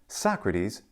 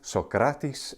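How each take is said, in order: First: It is said in English pronunciation. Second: It is said in modern Greek pronunciation. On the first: "Socrates in English" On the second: "Socrates in modern Greek"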